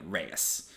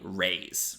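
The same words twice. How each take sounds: First: The name sounds unlike the word rays. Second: The name sounds like the word rays. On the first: The speaker calls it wrong. "Very common mispronunciation" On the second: The speaker calls it right. "like rays of sun"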